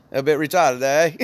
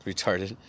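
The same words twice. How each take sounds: First: Playful Australian accent, raised a little louder. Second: Said in the usual way. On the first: Shown as a demonstration. Showing co-hosts how it sounds, Australian accent. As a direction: put on an Australian twang. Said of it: "it's like an Australian". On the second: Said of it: "say it in a Australian accent".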